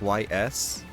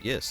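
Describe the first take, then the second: First: The name is said as two letters. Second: The name is said as one word. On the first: "it's pronounced Y S" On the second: "She called it yes"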